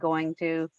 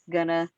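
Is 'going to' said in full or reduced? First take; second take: full; reduced. First: Both words are said fully and clearly. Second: The words are reduced and run together. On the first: The speaker calls it right. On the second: The speaker calls it wrong.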